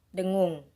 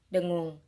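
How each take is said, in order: No difference in how they are said.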